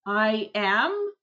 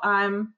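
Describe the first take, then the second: First: 'I am' is said as two full words. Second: 'I am' is contracted into one syllable.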